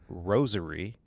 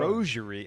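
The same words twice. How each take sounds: First: The first syllable sounds like the word rose. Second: The consonant after the first vowel is zh.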